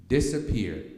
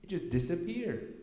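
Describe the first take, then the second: First: Disappeared said louder, landing hard with a falling close; emphatic repeat. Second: Said in the usual way. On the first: Shown as a demonstration. Speaker stressing that the tumor vanished, with Disappeared louder and falling. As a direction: hammer the word Disappeared home.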